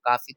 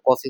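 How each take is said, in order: First: The first vowel is an open 'ah' sound. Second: The first vowel is a rounded 'aw' sound. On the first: This is how people in Bihar say it. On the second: This is the standard English-based pronunciation.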